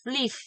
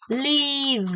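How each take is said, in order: First: Live ending in a breathy F, voice dropped; unvoiced ending. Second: Live ending in a buzzing voiced V. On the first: Teacher shows the wrong unvoiced ending. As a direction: let live end unvoiced like F. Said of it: "If you start the voicing at the end". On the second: Teacher models the voiced ending. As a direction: keep the voice on through the V of live. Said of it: "Keep the voice single, the whole words and vowel V". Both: Shown as a demonstration.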